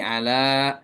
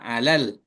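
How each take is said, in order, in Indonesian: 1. Vokal akhir ditahan panjang sebelum konsonan henti. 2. Vokal akhir pendek dan menyambung ke l. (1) "Kalau berhenti di sini ala, maka ada alifnya" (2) "kalau disambung ke al-malaikah, maka alal. La-nya atau alif bengkok ini hilang"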